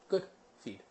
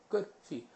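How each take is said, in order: The two takes are said the same way.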